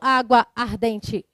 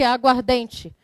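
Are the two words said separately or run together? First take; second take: separately; run together. First: Both words keep their own vowels, said apart. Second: The words merge into one, losing a vowel. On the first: The speaker calls it wrong. "Eu não falo água ardente" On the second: The speaker calls it right. "Juntou, não juntou? Ficou o que?"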